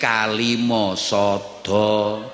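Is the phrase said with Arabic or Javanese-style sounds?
Javanese-style. It is said with simplified Javanese-style sounds. The speaker calls it wrong. "kangelan diunekne kalima sada"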